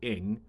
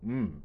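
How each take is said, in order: First: The name is said the English way, as 'ing'. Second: The name is said the Cantonese way, as 'mm'.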